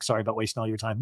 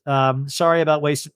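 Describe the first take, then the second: First: Much softer, lower self-mocking "Sorry about wasting"; mock timid apology. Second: Said in the usual way. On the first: Shown as a demonstration. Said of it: "I was like". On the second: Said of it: "no, I was like".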